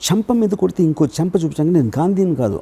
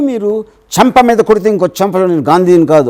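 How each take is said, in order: First: It is said with heartfelt anguish. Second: It is said with anger.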